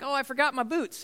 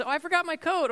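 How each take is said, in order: First: Higher, mock whiny child voice; lightly voiced kid forgetting boots. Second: Much higher, mock whiny child voice; a kid lamely confessing a forgotten coat. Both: Kids forgetting things before trip.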